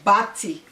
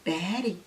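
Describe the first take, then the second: First: It is said with a Jamaican patois pronunciation. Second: It is said with an American pronunciation. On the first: The speaker calls it right. "we say bati, which is bottom" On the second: The speaker calls it wrong. "Don't say baddie. In this America, baddie"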